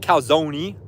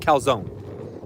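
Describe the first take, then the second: First: The final E is pronounced as a syllable. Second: The final E is silent, no extra syllable. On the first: The speaker calls it wrong. "some people say calzone... I got some beef with people who are pronouncing that E" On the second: The speaker calls it right. "It's definitely pronounced calzone. There's that E is not pronounced"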